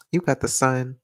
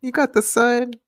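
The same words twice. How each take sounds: First: Said in the usual way. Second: Much higher sing-song reading; playful high-pitched take. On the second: Shown as a demonstration. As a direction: lift it way up high. Repeats line in different voices.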